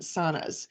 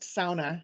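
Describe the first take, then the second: First: Sauna is said with the local American pronunciation. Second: Sauna is said with the Finnish pronunciation. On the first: This is how people in the Twin Cities say it. "people in the Twin Cities down here call them" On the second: This is how people up north say it. "up there it's pronounced sauna because that's the the proper Finnish pronunciation"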